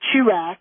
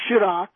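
First: The name is said in an anglicized way. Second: The name is said in a French way. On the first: The speaker calls it wrong. "they don't say Chirac" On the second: The speaker calls it right. "They say Chirac"

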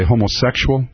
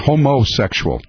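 First: The word is said in a plain, ordinary way. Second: The word is said in an exaggerated, mocking way. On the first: This is the ordinary way of saying it. "They don't say homosexual" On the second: This mimics how conservatives say it. "They say homosexual"

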